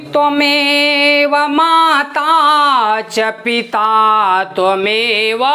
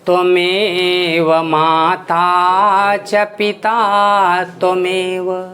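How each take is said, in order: First: The phrase is spoken at a raised high pitch. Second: The phrase is spoken at a lowered low pitch. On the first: "इसी को चढ़ा के आपने उच्च भाग से कहा" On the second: "जब इसी को निम्न भाग में कहेंगे"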